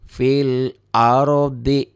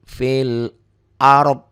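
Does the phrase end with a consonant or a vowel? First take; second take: vowel; consonant. First: The phrase ends with a final vowel sound. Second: The phrase ends on a consonant, vowel dropped. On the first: The reading continues into the next words. "itu ikro satu sampai empat bacanya begitu" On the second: The reading stops here. "Ikro lima mulai fil arod"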